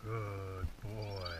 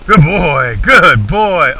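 First: Soft, low, slow praise; soothing praise. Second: Loud, hearty praise for the dog. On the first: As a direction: gently reassure the dog. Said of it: "so I'm gonna have him calm down". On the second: Praising dog after gun shot. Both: Real, not acted.

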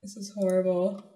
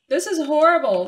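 First: Said in the usual way. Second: Raised pitch; louder, exasperated. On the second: Real, not acted. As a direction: exclaim it with dismay. Louder repeat.

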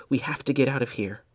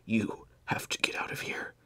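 First: Said in the usual way. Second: Soft urgent whisper; dying whisper. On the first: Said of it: "Benjamin urging plainly". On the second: Acted. Dying Blair to Benjamin, a weak urgent whisper. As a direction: press him to go, barely voiced.

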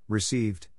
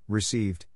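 Both takes have the same delivery.

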